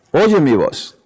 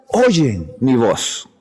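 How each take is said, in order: First: "Oyen" leaned on, "mi voz" falling away; stress on Oyen. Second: Slowed right down, every word weighed; slow solemn quote. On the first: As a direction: hit "Oyen" and let the rest drop. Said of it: "y mis ovejas oyen mi voz". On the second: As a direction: lay the verse out slowly and solemnly. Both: Acted.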